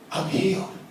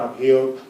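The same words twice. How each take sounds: First: It is said with strong feeling and conviction. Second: It is said flatly, without any emotion. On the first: The speaker truly believes it is a fact. The speaker calls it right. "I can say it with conviction" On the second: The speaker is only reciting words, not believing them. The speaker calls it wrong. "I'm not putting any emotion to it and I'm not really believing it"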